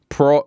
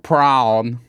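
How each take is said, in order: First: The word is said in an Australian accent. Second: The word is said in an American accent. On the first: "like we say" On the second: "I have to be like prawn"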